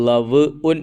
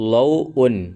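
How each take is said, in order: First: The first syllable ends in a v consonant. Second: The first syllable has an au diphthong. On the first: The speaker calls it wrong. "കുട്ടികൾ ലവ് ഉൻ എന്ന് ചിലപ്പോൾ വായിക്കുമെന്ന്" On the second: The speaker calls it right. "അത് വായിക്കേണ്ടത് ലൗ ഉൻ"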